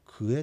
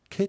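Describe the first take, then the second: First: The word is said as two syllables, ku-e. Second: The word is contracted into one syllable, ke. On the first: This is the full form used in one dialect. "静内方言ではくえで通じるんですが" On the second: This is the contracted form used in other dialects. "くえが縮まってけになる"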